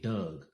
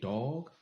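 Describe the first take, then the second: First: The vowel is a short 'uh' sound. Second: The vowel is an open 'aw' sound. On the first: "they say Doug" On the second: "the way they say dog"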